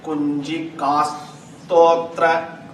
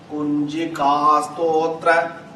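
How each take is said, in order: First: It is said with a held break. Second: It is said smoothly without a break.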